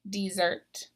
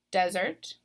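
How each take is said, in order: First: "desert" as the verb, dee-ZERT; "desert" stressed on the second syllable; last-syllable stress. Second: "desert" as the noun, DEZ-ert; "desert" with the weight up front; first-syllable stress. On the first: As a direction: lean on the end of "desert". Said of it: "but there is a difference". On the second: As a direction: hit the start of "desert": DEZ. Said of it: "in the noun column". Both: Shown as a demonstration.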